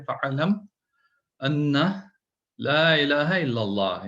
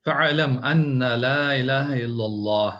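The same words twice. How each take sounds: First: Slow, measured chanted Arabic verse; Quranic recitation. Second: Slow, measured chanted Arabic recitation; Quranic recitation. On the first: Repeating the verse as reminder. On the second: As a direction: intone the verse slowly like tajweed. Reciting Quran verse in lesson. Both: Acted.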